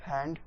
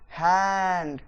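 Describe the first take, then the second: First: Said in the usual way. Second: hand held long and louder, falling; stretched stress. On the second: Shown as a demonstration. (Hand को ज़ोर देकर लंबा बोलें) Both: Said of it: "बढ़ा देना है".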